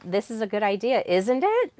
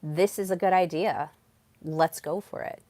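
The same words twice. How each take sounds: First: Rising, questioning "isn't it?" tacked on the end; seeking validation. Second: Steady statement, no questioning lift; speaking with power. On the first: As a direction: lift "isn't it" high, asking for approval. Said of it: "asking that question at the end". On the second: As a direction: state it as settled and move straight on. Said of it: "instead of speaking with power". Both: Shown as a demonstration.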